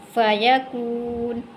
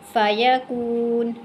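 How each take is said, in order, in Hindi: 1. शब्द का अंत बिना स्वर वाले व्यंजन 'न' पर होता है। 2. शब्द का अंत बिना स्वर वाले व्यंजन 'न' पर होता है।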